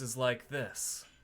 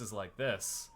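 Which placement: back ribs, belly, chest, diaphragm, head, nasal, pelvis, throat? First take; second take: back ribs; throat. First: The voice sounds drawn from the back ribs. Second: The voice sounds tight, resonating in the throat. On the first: "the back of the ribs voice is like this" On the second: "My throat voice is like this"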